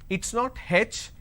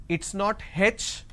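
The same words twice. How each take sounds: No difference in how they are said.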